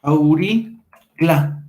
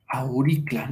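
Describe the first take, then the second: First: "auricla" in two long, separated pieces; very slow, deliberate teacher's demonstration; sounded out slowly. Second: Said in the usual way. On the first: Shown as a demonstration. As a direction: stretch out "auricla" syllable by syllable. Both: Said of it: "va a desaparecer y nos queda".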